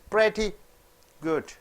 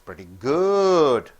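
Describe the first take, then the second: First: The stress falls on the word pretty. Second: The stress falls on the word good. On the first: The movie is only average. "When you stress on pretty and you stress less on good, it is average" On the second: The movie is very good. "When you stress on good, when you don't stress on pretty, it means it is a very good movie"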